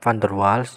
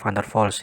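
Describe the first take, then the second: First: The name is read just as it is spelled. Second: The name is pronounced differently from its spelling. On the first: This is how the name is written. "van der Waals ya tulisannya" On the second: This is how the speaker was taught to say it. "saya dulu diajarin cara bacanya adalah van der Waals"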